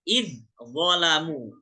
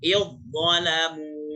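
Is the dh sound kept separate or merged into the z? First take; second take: separate; merged. First: The dh and z are pronounced separately. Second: The dh merges straight into a heavy z. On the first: The speaker calls it wrong. "kalau kita lihat" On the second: The speaker calls it right. "Padahal yang betul langsung ke zo"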